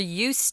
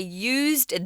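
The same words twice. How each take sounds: First: The word is said with an S sound. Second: The word is said with a Z sound. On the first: It means being familiar with something. "it turns into an S" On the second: It means made use of something. "that Z sound"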